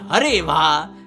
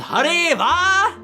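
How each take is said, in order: First: It is said with less energy. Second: It is said with strong energy and force.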